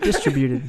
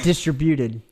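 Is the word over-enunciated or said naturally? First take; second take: natural; over-enunciated. First: The word is pronounced smoothly and naturally. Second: Every syllable is pronounced with exaggerated care. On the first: The speaker calls it right. "There you go" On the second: The speaker calls it wrong. "over enunciated all of it"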